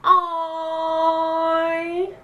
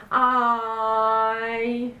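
First: AI held long, high and loud; long loud high-pitched ai; intonation demo. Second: Long, strong, level ai; intonation demo. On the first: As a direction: stretch "ai" on one high, loud note. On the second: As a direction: drone "ai" out on one note. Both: Shown as a demonstration. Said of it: "Também tem várias entonações".

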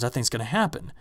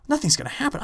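First: Said in the usual way. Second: Incredulous echo. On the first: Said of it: "She goes". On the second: Retold or imitated. Echoing her in disbelief.

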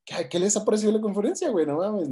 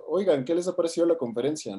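First: Much higher, insistent retold question; pushy, high-pitched repeat of the question; butting in. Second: Slightly higher voice of a stranger approaching; light, higher conversational opener; retold casual question. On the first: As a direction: imitate an ignored stranger forcing his way into the chat. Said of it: "como que se mete ahí". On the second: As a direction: imitate a passerby politely asking for opinions. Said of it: "llega y les pregunta".

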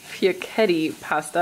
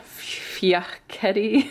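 First: Said in the usual way. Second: Fiocchetti whispered slowly, as if a swear word; whispered like a curse. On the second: Real, not acted. Naming the pasta to viewers, fiocchetti whispered like a curse. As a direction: say fiocchetti under your breath like a naughty word. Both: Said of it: "Feels like I'm cursing".

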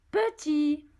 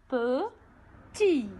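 First: Said in the usual way. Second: "Petit" split in two, pe, then tit after a pause; syllable by syllable. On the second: Shown as a demonstration. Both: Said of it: "Deux syllabes".

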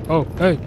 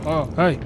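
No difference in how they are said.

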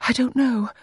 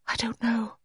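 First: High-pitched, fuller voice than a whisper; high, uncertain repetition; high, voiced repeat. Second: High, soft near-whisper; hushed, wispy high voice; almost whispered. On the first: Repeats it after the near-whisper. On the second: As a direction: barely voice it, pitched high. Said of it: "She almost whispered it". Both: A narrator's reading.

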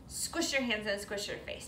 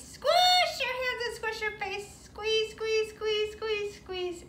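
First: Said in the usual way. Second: Chanted, much higher sing-song take of the line; chanted, chirp it way up for the kids; high playful chant. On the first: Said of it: "plain take". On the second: Shown as a demonstration. Teacher repeating squish rhyme, high playful chant. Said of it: "playful repeat".

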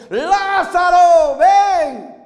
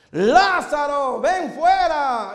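First: Slow booming shout, much louder and higher; raised voice. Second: Slow, drawn-out call. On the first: Jesus calls Lazarus out, loud and drawn out. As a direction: call the name across the grave. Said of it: "alzó la voz". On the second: Jesus calls Lazarus out, slow and steady. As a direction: call "ven fuera" long and measured. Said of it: "volvió a su cuerpo". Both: Acted.

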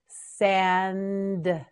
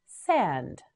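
First: "Sand" drawn out to a separate d; slow modelling. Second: Said in the usual way. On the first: Shown as a demonstration. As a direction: stretch "Sand" and release the d. Teacher models word slowly.

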